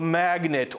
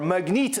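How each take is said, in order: First: The name is said with an English vowel. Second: The name is said with a Russian vowel.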